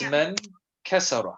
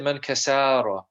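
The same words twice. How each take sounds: First: The vowels in kasara are kept short. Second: A vowel in kasara is drawn out long. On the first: The speaker calls it right. "It's man kasara" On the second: The speaker calls it wrong. "you're saying it as if there is a fatha there, or an alif"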